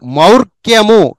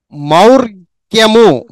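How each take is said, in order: First: Said in the usual way. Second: మౌర్క్యము drawn out slowly, every syllable clear; slow careful reading. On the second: Shown as a demonstration. Teacher drilling a word for pupils, slow and clear. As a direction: stretch మౌర్క్యము out for the class. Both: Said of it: "ఈ విధంగా practice చేయండి".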